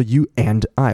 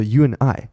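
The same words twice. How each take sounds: First: "you and I" with full "and", "d" sounded; separate, full "and" in "you and I"; unreduced and. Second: "you and I" linked, "and" shrunk to "n"; light "and" without the "d"; reduced and. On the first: Teacher shows what not to say, full "and". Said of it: "我不会说". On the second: Teacher shows natural speech, weak "and". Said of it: "我会说". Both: Shown as a demonstration.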